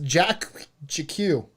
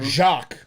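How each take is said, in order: First: The name is said as two syllables. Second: The name is said as one syllable.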